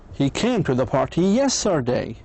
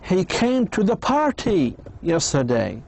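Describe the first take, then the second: First: The word yesterday carries the strongest stress. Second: The word party carries the strongest stress. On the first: It was yesterday, not some other time. "you want to focus and to say it was yesterday, not two weeks ago" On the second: It was a party, not a meeting. "So it was a party, not a meeting or something else"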